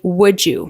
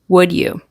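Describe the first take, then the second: First: The D and Y blend into a J sound. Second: The D and Y are said separately.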